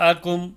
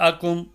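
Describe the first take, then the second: Both takes have the same delivery.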